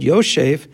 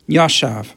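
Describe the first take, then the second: First: The first vowel is an 'o' sound. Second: The first vowel is an 'a' sound. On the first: This is the traditional reading of the word. "the way we pronounce it as if there's a vav after the yud" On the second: This is how the word reads as written. "which if you were to read it without nekudos, you would just read it automatically"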